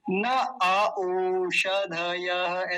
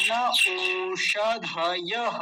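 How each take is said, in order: First: न अ ओषधयः with an extra a before ओ; slowly insert a separate अ into न अ ओषधयः; mistaken pronunciation. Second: न ओषधयः with no vowel between न and ओ; correct pronunciation. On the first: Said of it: "ऐसे बोलेंगे क्या?". (न अ ओषधयः, बीच में फ़ालतू अ जोड़कर) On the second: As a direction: go from न straight to a long ओ. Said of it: "तो क्या बोलेंगे?". (न ओषधयः, बीच में अ के बिना) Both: Shown as a demonstration.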